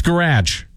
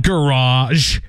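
First: 'garage' as guh-RADGE; preferred hard ending. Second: 'garage' drawn out as guh-RAHZH; rejected soft ending. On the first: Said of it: "it's garage". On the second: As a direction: say 'garage' slowly with ah and zh. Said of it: "It's not garage". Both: Shown as a demonstration.

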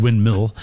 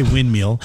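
First: Said in the usual way. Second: First "windmill" said as "wind-meal"; mispronounced windmill. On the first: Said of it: "instead of windmill". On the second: Shown as a demonstration. Host admitting his own slip, "windmill" mispronounced as "wind-meal". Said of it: "I tend to say".

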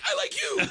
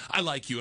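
First: High, squeaky, laughing echo; giddy echo. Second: Said in the usual way. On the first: Retold or imitated. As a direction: fire it back like a thrilled kid. He echoes back, starstruck.

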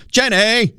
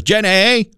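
First: Imitating Forrest Gump's "Jenny!" much higher, with the pitch falling at the end; Forrest Gump call. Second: Imitating the sung call "Jenny!" much higher, with a rise at the end; [name]'s "Jenny". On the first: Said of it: "put the Forrest Gump accent on". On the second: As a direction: call out "Jenny!" high and lifting, as she sings it. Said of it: "she says it with the same inflection".

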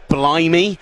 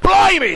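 First: Said in the usual way. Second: High, loud shouted BLIMEY; involuntary outburst. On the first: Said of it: "And I actually said". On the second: Retold or imitated. Commentator startled by a play on air, involuntary shout. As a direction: blurt it out at full shout, as if it escaped you. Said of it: "it just came out and I couldn't help myself".

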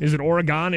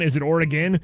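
First: Oregon said with a long "gone" ending. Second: Oregon with a short, reduced "gen" ending. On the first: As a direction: say Oregon so the last part rhymes with "on". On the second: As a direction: say Oregon ending like "again", unstressed. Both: Shown as a demonstration. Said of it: "don't know how to pronounce Oregon".

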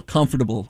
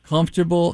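First: "comfortable" as com-for-ta-ble; four syllables. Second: "Comfortable" as comf-ter-ble; three syllables. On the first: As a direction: sound every syllable of "comfortable". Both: Shown as a demonstration. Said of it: "pronounced every syllable".

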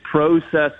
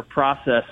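First: "process" with a long O, PRO-sess; first syllable of "process" rhymes with go; long-O pronunciation. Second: "process" with an open AH, PRAH-sess; first syllable of "process" opened to an ah; short-O pronunciation. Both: Shown as a demonstration. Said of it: "Is it process or process?".

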